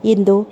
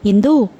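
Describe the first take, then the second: First: Loving call. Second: Shouts her name, much louder; angry shout. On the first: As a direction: call her name with affection. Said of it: "ప్రేమ ఉట్టిపడుతున్న స్వరంతో పిలిచారు". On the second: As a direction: bark the name in fury. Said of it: "కోపంగా అరిచాడు". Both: A narrator's reading.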